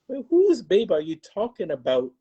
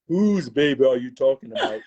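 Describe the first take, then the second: First: It is said in an ordinary voice. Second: It is said in a deep baritone voice.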